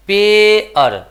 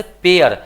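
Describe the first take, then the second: First: पेअर slow and loud, पे held long; split pronunciation. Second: Said in the usual way. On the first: Shown as a demonstration. Teacher shows both vowels in the word, split pronunciation. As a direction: pull पेअर apart into पे and अर. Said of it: "ए और अ आया". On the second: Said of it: "यहाँ पे पेयर हो गया".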